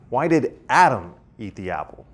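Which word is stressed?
Adam. The stress falls on the word Adam. Why this person rather than someone else. "rather than some other person?"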